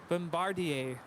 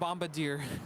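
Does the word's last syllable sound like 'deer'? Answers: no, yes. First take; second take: no; yes. First: The last syllable does not sound like 'deer'. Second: The last syllable sounds like 'deer'. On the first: The speaker calls it right. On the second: The speaker calls it wrong.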